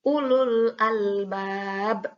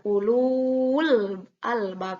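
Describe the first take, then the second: First: The vowel before the lam is kept short. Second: The vowel before the lam is drawn out long. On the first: The speaker calls it right. "langsung saja karena tidak boleh dibaca panjang" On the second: The speaker calls it wrong. "tidak seperti matobi'i, tidak ulul albab"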